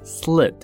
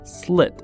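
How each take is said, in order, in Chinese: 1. 元音非常短，一下就截住。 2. 元音非常短，一下就截住。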